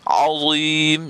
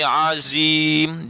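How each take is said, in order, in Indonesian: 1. Konsonan pertama itu tebal. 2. Konsonan pertama itu tipis, seperti zain. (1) "kena tebal sebutannya" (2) "jangan bunyi azim, dia jadi zain"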